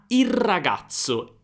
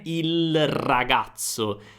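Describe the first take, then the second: First: The article's L turns into an R sound. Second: The article is said with an L sound. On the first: The speaker calls it right. "non c'è proprio più la L" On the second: The speaker calls it wrong. "Non è"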